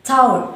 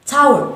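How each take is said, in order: Both takes have the same delivery.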